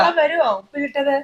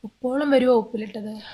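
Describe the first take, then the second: First: It is said loudly. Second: It is said softly.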